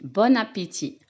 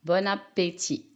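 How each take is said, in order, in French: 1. Le son n se lie au mot suivant. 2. Le son n se lie au mot suivant.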